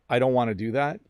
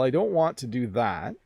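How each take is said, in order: First: The words are reduced and run together. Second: Each word is pronounced fully and clearly. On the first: It sounds casual and informal. The speaker calls it wrong. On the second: It sounds formal. The speaker calls it right.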